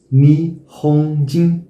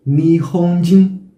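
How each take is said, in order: Both takes have the same delivery.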